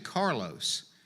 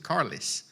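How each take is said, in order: First: The name is said the standard way. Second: The name is said locally, ending like 'liss'. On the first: This is how the name is properly said. "it's actually Carlos" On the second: This is how people back home say it. "because we're where we are, we pronounced it Carlos"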